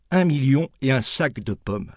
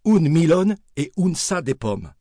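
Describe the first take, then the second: First: Said in the usual way. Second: Milone and sa said the local way, a little higher; Auvergnat pronunciation. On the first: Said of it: "un milone et un sa de pommes". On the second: Shown as a demonstration. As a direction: say milone for million and sa for sac.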